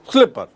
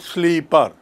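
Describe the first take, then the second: First: The first vowel is short, as in 'slip'. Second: The first vowel is long, as in 'sleep'. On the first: The speaker calls it right. "It is pronounced as slipper" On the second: The speaker calls it wrong. "You don't pronounce it sleeper"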